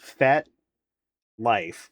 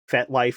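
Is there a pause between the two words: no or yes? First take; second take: yes; no. First: There is a pause between the two words. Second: The two words run together without a pause.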